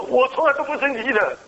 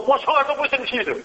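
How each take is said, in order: First: High-pitched mock-angry insistence, a second go; angry denial. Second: High-pitched mock-angry insistence; angry denial. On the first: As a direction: act out the furious doctor's denial, pitched high. (模仿医生高声生气地否认) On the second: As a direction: act out the doctor angrily denying his anger, pitched high. (高声假装生气地否认) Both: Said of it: "他很生气的说".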